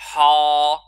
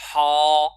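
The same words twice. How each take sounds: First: The letter is pronounced heavy, with emphasis. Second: The letter is pronounced thin, without emphasis. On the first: "je le prononce mufakham. Ça c'est faux" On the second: "ha il est mustafil"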